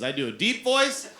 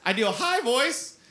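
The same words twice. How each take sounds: First: Demonstrating a deep voice; a modest stab at a deep voice. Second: Pitched well up, demo; high voice. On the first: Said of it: "I do three voices". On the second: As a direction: jump up into a high character voice. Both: Shown as a demonstration.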